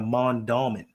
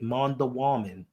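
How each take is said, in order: First: The name is said with three syllables. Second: The name has an extra syllable before the end. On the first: The speaker calls it right. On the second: The speaker calls it wrong.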